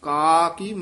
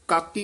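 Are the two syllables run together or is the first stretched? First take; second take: stretched; run together. First: The first syllable is drawn out before the second. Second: The two syllables run together without a break. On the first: The speaker calls it right. "ਲਮਕਾ ਕੇ ਬੋਲਣਾ" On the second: The speaker calls it wrong. "ਕਾਕੀ ਇਕੱਠਾ ਨਹੀਂ ਪਾਠ ਕਰਨਾ"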